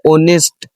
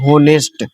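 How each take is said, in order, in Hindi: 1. शब्द की शुरुआत स्वर ध्वनि से होती है। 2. शब्द की शुरुआत h ध्वनि से होती है। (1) "लेकिन इसका सही मीनिंग पता क्या है?" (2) "इसे पढ़ते हैं ज्यादातर लोग होनेस्ट"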